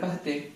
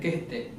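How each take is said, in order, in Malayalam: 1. ആദ്യത്തെ സ്വരം വ്യക്തമായ 'a' പോലെയാണ് ഉച്ചരിക്കുന്നത്. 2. ആദ്യത്തെ സ്വരം 'e' പോലെയാണ് ഉച്ചരിക്കുന്നത്. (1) "കഹത്തെ എന്നാണ് നമ്മൾ പഠിക്കുന്നതും വായിക്കുന്നതും" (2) "ശരിക്കും അതിന്റെ ഉച്ചാരണം ... കെഹത്തെ എന്നാ പറയുന്നത്"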